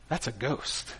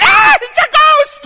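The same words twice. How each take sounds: First: Low, very soft, understated dread; hushed realization. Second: Very high, loud mock shriek of terror; little-girl scream. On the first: Acted. Preacher voices what disciples think on seeing Jesus, hushed realization. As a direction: drop it right down, almost under your breath. Quiet thought set against scream. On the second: Preacher mimics disciples panicking at a ghost, little-girl scream. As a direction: scream it like frightened little girls, drawn out. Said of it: "They scream like little girls".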